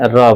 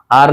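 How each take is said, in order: First: Teacher demonstrating र as R; phonic R sound. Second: Said in the usual way. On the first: Shown as a demonstration. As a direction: sound out र, not "ar". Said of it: "र बोलना है". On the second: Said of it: "आर नहीं बोलना है".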